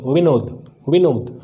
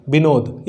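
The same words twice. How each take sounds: First: विनोद, a proper v sound; correct pronunciation. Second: विनोद with a b sound, as "बिनोद"; विनोद, b वाला गलत; wrong pronunciation. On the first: (सही उच्चारण: विनोद, व स्पष्ट) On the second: (गलत उच्चारण: विनोद, "बिनोद" जैसा) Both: Shown as a demonstration. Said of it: "ये विनोद नहीं".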